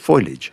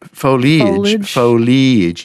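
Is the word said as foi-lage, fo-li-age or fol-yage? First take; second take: foi-lage; fo-li-age. First: The word has the vowel before the L. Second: The word has an ee vowel after the L. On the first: This is the odd form heard on broadcasts. "the E somehow jumps to the other side of the L" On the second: This is the original full form. "foliage ear"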